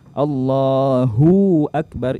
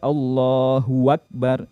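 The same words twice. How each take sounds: First: The hu sound is lengthened before akbar. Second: An extra wa sound comes before akbar. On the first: "itu memanjangkan hunya" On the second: "itu keliru... menambahkan waw berharokat fathah"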